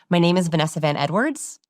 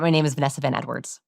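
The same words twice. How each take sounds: First: Falling, certain delivery of "My name is Vanessa Van Edwards"; confident statement. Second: "My name is Vanessa Van Edwards" rushed, with a doubtful lift on the name; question inflection. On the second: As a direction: say your name like an unsure question. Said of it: "I hear people ask their own name". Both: Shown as a demonstration.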